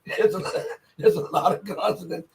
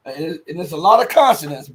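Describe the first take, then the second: First: Lot of consonants said through a laugh. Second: Said in the usual way. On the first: Real, not acted. To viewers, laughing at the hard Georgian names. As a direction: chuckle through the repeat. Repeats the line while laughing.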